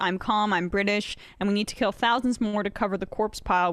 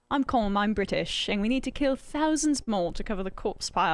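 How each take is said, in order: First: It is read in the speaker's ordinary accent. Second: It is spoken in a put-on British accent.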